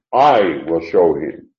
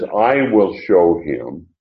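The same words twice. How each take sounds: First: "I" hit hard, then the rest falls away; stress on I. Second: Said in the usual way. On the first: Shown as a demonstration. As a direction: punch the pronoun "I", slowly and deliberately. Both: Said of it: "that was an emphatic pronoun".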